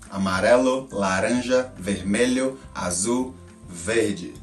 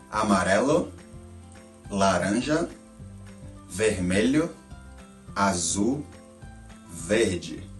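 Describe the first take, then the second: First: The colors are said quickly in a row. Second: The colors are said a little faster. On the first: "Faster now" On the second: "say it a little bit faster this time"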